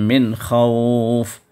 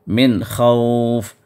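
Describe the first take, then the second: No difference in how they are said.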